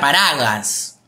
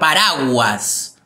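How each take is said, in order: First: The u after the g is silent. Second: The u after the g is pronounced. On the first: The speaker calls it wrong. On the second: The speaker calls it right.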